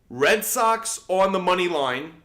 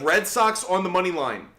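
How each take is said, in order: First: It is spoken very slowly. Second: It is spoken at a normal pace.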